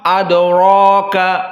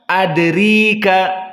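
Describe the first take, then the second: First: The vowel after r is a full open a. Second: The vowel after r is a full i. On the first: "contoh dari al-fathah" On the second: "jika dikasrahkan"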